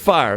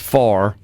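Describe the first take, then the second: First: The word is said with a full 'eye' vowel. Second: The word is said with a flat 'ah' vowel. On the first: This is how the original singer actually says it. The speaker calls it right. "But he really says fire there" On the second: This is how imitators usually say it. The speaker calls it wrong. "they will usually pronounce the word fire as far"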